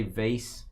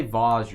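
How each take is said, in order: First: "vase" pronounced vayss; hillbilly pronunciation. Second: "vase" pronounced vahz; fancy pronunciation. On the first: Host teases about hillbilly speakers, "vase" as vayss. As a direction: say "vase" to rhyme with face. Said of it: "you're a hillbilly". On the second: Host teases about fancy speakers, "vase" as vahz. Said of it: "you're fancy". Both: Shown as a demonstration.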